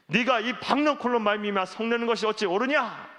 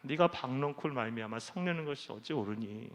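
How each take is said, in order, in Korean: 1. 날카롭고 화난 어조로 묻고 있어요. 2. 부드럽고 다정한 어조로 묻고 있어요. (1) "이게 아니에요" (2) "이거는 화를 내고 계시는 분이 아니에요"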